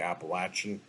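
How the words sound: It is said the southern US way. "In the south, they say Appalachian"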